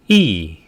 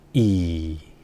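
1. 음이 높은 데서 확 떨어져요. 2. 음이 낮게 시작해서 더 낮게 내려가요. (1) "사성은 일성 높이에서 때려줍니다" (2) "낮은 음에서 낮은 음으로 내려갑니다"

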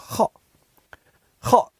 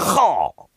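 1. 说得很轻，带着轻微的赞许。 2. 说得带着强烈、有力的赞许。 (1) "这就是一般好，一般般" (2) "那就是特别好"

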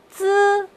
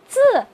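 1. 音高保持高而平。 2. 音高从高处急剧下降。

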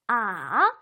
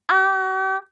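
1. 아래로 내려갔다 다시 올라와요. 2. 높고 평평하게 유지돼요. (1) "내려갔다 올라오며" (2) "앞으로 쭉"

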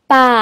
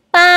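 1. Diucapkan dengan nada ketiga. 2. Diucapkan dengan nada pertama. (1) "Nada ketiga" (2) "Nada pertama"

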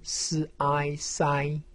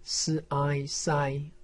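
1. 音高保持高而平。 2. 音高保持高而平。

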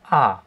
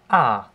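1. Die Tonhöhe fällt stark von hoch nach tief. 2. Die Tonhöhe fällt stark von hoch nach tief.

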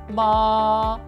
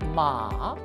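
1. 이 음절은 높고 평평한 음높이로 길게 냅니다. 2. 이 음절은 낮게 내려갔다 올라가는 음높이로 길게 냅니다. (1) "일성과 삼성, 홀수 성조는 길게 소리냈었죠?" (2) "일성과 삼성, 홀수 성조는 길게 소리냈었죠?"

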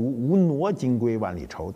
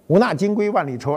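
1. 第二个字读nuo。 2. 第二个字读na。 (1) "按照准确的读音应该读" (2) "我就按照我们通俗的读法去说就完了"

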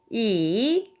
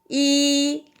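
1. 3성으로 발음합니다. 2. 1성으로 발음합니다. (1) "3성은" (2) "1성"

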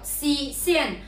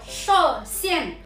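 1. 第一个音节听起来像 shi。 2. 第一个音节听起来像 shuo。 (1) "普通话并不是读诗仙" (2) "是读说仙"

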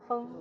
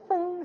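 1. 韵尾音平稳、放松。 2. 韵尾音夸张得很明显。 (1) "就风就好了" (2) "你不一定要念成风这样子"

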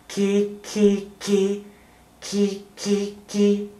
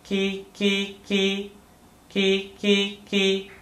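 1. 声音散得很开，不太集中。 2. 声音窄而集中。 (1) "有没有把嘴巴往左右两边扩张，变成" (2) "把字讲在两只手指头的范围里面，听起来像这样"

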